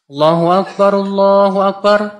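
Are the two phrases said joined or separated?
joined. The two phrases run together as one unit. The speaker calls it right. "Jadi satu"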